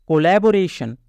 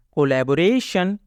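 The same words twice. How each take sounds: The two takes are said the same way.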